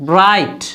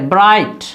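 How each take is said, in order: No difference in how they are said.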